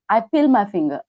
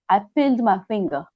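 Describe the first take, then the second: First: The D sound at the end of peeled is dropped. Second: The D sound at the end of peeled is heard. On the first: The speaker calls it right. "sound D sometimes disappear" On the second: The speaker calls it wrong. "I think I should not say I peeled"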